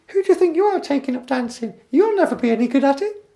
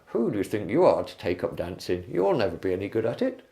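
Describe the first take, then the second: First: It is said in a Mickey Mouse voice. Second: It is said in a Mister Bean voice.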